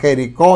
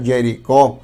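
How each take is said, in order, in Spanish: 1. La palabra empieza con el sonido j del español. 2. La palabra empieza con sonido de y.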